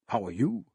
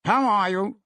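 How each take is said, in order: First: Said in the usual way. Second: High, louder hearty greeting; a brisk merchant hailing a colleague; businessman greeting. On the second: Acted.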